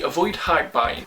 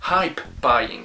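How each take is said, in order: First: The P is dropped, sounding like 'high buying'. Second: The P in 'hype' is clearly pronounced. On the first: The speaker calls it wrong. "I can't pronounce the P in hype, so it just sounds like I'm saying high buying" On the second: The speaker calls it right. "okay, I got it"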